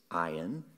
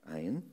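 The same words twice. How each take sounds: First: "ayin" said as AH-yin, two syllables, rising; Hebrew word. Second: "ayin" repeated on its own as AH-yin, rising; Hebrew word repeated. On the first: Teaching the congregation the Hebrew word, "ayin" said slowly as AH-yin. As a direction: pronounce "ayin" carefully, AH-yin with a lift at the end. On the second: Repeating the Hebrew word for the congregation, "ayin" as AH-yin. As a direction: say "ayin" once more, short, AH-yin. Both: Shown as a demonstration. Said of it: "the word for eyes, which is".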